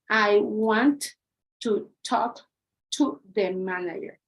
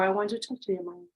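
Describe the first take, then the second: First: Each word is said separately, with choppy breaks. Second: The words run smoothly together without breaks. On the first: The speaker calls it wrong. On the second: The speaker calls it right.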